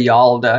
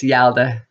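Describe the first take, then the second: First: "Yalda" with her own rounded "yawl" vowel; habitual mispronunciation. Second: "Yalda" as she thinks it should be said; attempted correct pronunciation. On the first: Wife showing what her husband corrects, "Yalda" mispronounced as "YAWL-da". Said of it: "'cause I wanna say Yalda". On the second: Wife trying her husband's Iranian word, "Yalda" said carefully correct. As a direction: say "Yalda" with the corrected first vowel. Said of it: "I think it's Yalda". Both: Shown as a demonstration.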